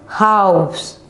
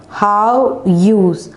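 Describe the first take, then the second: First: Said in the usual way. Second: "House" broken into two separate beats; split into parts. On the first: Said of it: "we can easily pronounce the word". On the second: Shown as a demonstration. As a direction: stretch "House" apart with a pause inside. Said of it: "divide the word into two".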